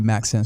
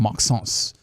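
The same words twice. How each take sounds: First: The name is said with English pronunciation. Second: The name is said with French pronunciation.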